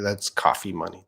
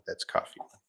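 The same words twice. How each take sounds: First: Said in the usual way. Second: Whispering That's coffee money; whispered repeat. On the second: Shown as a demonstration.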